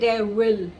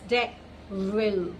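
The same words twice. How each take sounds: First: The middle consonant is a w sound. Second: The middle consonant is a v sound. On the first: The speaker calls it wrong. "we never say devil" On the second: The speaker calls it right. "It's devil"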